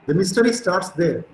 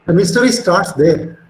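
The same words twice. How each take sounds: First: Said in the usual way. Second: Louder, slow, emphatic delivery. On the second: Real, not acted. Lecturer telling students where the mystery begins, emphatic. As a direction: drive the key point home loudly and slowly. Lecturer stresses the key point.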